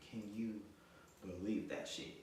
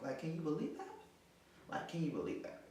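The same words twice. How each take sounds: First: Deliberate disbelief. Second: High-pitched disbelief; incredulous. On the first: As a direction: drop down and space out the words. Repeats the question low, broken up. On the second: Woman to viewers about his betrayal, high incredulous question. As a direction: ask it high, appealing to the listener. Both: Real, not acted.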